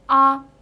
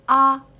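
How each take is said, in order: The two takes are said the same way.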